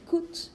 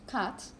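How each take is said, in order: First: It is said in a Scottish accent. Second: It is said in a standard English accent.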